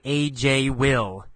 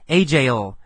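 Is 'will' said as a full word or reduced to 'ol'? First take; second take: full; reduced. First: 'Will' is said as a full separate word. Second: 'Will' is reduced to a short 'ol' sound. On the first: The speaker calls it wrong. "We don't say usually AJ-will. That's written English" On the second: The speaker calls it right. "in speaking, we just add that ol sound"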